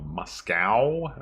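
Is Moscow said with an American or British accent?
American. It is said with an American accent.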